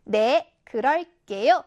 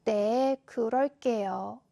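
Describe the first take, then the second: First: Big, confident voice on a short answer; confident, loud. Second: Low, slow, humble answer; accepting, apologetic. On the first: Seulbi answering the crossing guard's greeting, loud and confident. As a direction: answer loudly and with full assurance. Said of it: "자신감 넘치고 큰 목소리로". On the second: Seulbi answering the homeroom teacher's advice, sorry and accepting. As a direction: admit it meekly, drawing the words out. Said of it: "인정하는 말투". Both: Shown as a demonstration.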